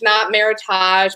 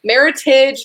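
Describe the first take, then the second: First: It is said the fancy, showy way. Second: It is said the plain, everyday way. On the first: The speaker calls it wrong. "if you want to sound fancy A F and say Meritage" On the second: The speaker calls it right. "Meritage is the proper way to say it"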